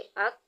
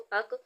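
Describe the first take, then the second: First: The final k is held still without bounce. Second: The final k is released with a bouncing echo. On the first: The speaker calls it right. "इसको हिलाई बगैर पढ़ेंगे" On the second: The speaker calls it wrong. "इसको अक नहीं पढ़ा जाएगा"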